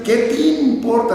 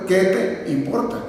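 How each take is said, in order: First: "te importa" fused into "ti-importa"; higher pitch, "qué te importa" with I for E; te importa as timporta. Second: "te importa" as two separate words; careful "qué te importa", E of "te" sounded. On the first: Retold or imitated. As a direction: say "te importa" as one word, "timporta". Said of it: "lo dicen". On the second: Shown as a demonstration. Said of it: "en lugar de decir".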